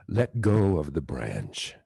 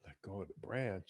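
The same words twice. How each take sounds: First: Much lower, slow godlike order; heavenly voice command. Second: Much softer, in the teacher's own voice; soft reflective repeat. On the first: Retold or imitated. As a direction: command from above, slow and deep. Voice from the sky commands. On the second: Real, not acted. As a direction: let the words sink in quietly.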